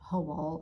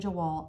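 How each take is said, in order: First: The word begins with an H sound. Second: The word begins with a J sound. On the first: The speaker calls it right. "It's probably like Hawal or something" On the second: The speaker calls it wrong. "I say Jawal. I know that is not right"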